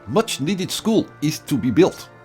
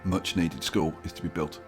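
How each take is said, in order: First: It is said in a put-on Russian accent. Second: It is said in the speaker's normal accent.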